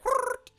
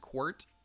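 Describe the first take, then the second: First: The name is said with squawking, bird-like sounds. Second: The name is said in a plain, normal voice. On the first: "if we were to pronounce it like an Aarakocra, it'd be more like" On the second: "the way that we're gonna just pronounce his name"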